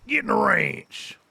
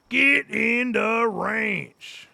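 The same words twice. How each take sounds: First: Higher, louder drawn-out command; mock herding command. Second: Higher, louder, very slow Get in the ranch; stretched mock command. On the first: Gamer ordering animals into the ranch, mock bossy. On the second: Gamer ordering animals into the ranch, very drawn out. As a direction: drag every word out to herd them.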